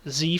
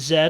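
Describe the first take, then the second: First: The letter is said the American way. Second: The letter is said the British way.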